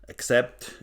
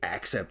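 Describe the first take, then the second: First: The stress is on the second syllable. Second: The stress is on the first syllable. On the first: The speaker calls it right. "The pronunciation is not on the A" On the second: The speaker calls it wrong. "The German metal freaks, they say"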